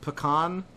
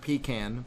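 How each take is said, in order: First: It is said in a general American accent. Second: It is said in a Texan accent. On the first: The speaker calls it right. "the general way of saying this word" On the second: The speaker calls it wrong. "not the Texan way"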